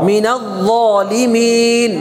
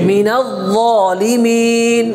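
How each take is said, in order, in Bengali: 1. z-এর আগে l ধ্বনি বজায় থাকে। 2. z-এর আগে l ধ্বনি বজায় থাকে।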